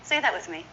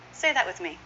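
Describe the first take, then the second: No difference in how they are said.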